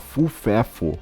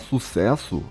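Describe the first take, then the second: First: The S sounds are replaced by F sounds. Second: The word is said with clear S sounds. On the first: The speaker calls it wrong. "eu trocava o S pelo F" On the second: The speaker calls it right. "em vez de eu falar sucesso"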